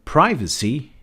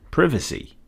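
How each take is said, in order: First: "privacy" with a long i, as in "eye"; first variant of privacy. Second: "privacy" with a short i, as in "privet"; second variant of privacy. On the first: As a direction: say "privacy" as PRY-vuh-see. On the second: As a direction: say "privacy" as PRIV-uh-see. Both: Shown as a demonstration. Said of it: "Do you say privacy or privacy?".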